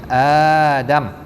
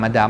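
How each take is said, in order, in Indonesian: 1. Vokal pertama panjang. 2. Vokal pertama pendek. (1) "a tu bagi panjang" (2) "Kita dah tulis rumi, kita sebut Adam Adam lah"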